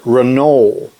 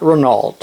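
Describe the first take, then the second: First: The name is pronounced the French way. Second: The name is pronounced the American English way. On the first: The speaker calls it right. "That's the way the French pronounce it" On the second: The speaker calls it wrong. "it's not Renault"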